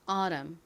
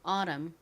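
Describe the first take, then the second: First: The t is flapped like a quick r. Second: The t is flapped like a quick r.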